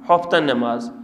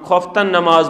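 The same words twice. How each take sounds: First: The first word begins with a breathy h sound. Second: The first word begins with a throaty kh sound. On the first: This is how people from another area say it. "हा बोलते हैं" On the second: This is how our own local community says it. "हम खफ्तन नमाज बोलेंगे"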